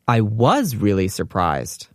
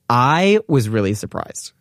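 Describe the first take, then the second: First: The stress is on the word was. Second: The stress is on the word I.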